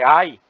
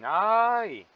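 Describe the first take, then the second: First: It sounds like a cry of pain. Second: It sounds mocking, teasing someone.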